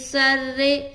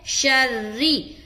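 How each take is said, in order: First: It begins with a plain s sound. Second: It begins with a sh sound. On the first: The speaker calls it wrong. "सर्रे नहीं है" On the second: The speaker calls it right. "बल्कि शर्री है"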